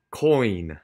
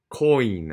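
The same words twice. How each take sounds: Both takes have the same delivery.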